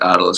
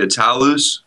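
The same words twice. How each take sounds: First: The name is pronounced the anglicized way. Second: The name is pronounced the Greek way. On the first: This is the form the band uses because it sounds better. "but we just pronounce it Attalus, because that sounds better" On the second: This is the technically correct form of the name. "Technically, it should be [name], because it's a Greek name"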